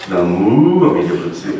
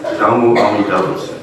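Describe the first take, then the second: First: "Namu" with its "mu" leaned on and stretched; emphasis on MU. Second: Said in the usual way. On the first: Shown as a demonstration. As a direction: overstress "mu" in "Namu Amida Butsu". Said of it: "put the emphasis on the mu". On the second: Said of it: "just Namu Amida Butsu".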